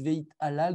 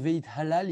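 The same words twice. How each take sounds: First: The middle sound is a glottal stop. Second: The middle sound is a breathy h. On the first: The speaker calls it wrong. "ils disent Veit halal. Donc, avec un aleph" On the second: The speaker calls it right. "au lieu de dire Veit halal"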